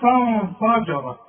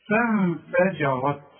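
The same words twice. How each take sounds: First: The opening vowel sounds thick and heavy. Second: The opening vowel sounds thin and light. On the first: The speaker calls it wrong. "اوعى تقول لي" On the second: The speaker calls it right. "الف دي مرققة والجيم مرققة، الراء هي اللي ايه؟ مفخمة"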